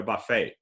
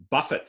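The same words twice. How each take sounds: First: "buffet" as buh-FAY, silent T; French pronunciation. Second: "buffet" rhyming with "tuffet"; verb pronunciation. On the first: Lecturer naming where you eat, French pronunciation of "buffet". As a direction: say "buffet" the French way, stressed on the end. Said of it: "we got buffet from French". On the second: Lecturer illustrating heteronyms, verb pronunciation of "buffet". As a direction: say "buffet" with first-syllable stress and a sounded T. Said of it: "can be pronounced in two different ways". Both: Shown as a demonstration.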